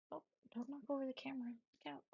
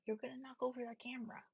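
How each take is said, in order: First: Quick whisper so the dog won't wake; hushed, fast warning to the dog. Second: Said in the usual way. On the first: Real, not acted. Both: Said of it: "I don't know why I'm whispering".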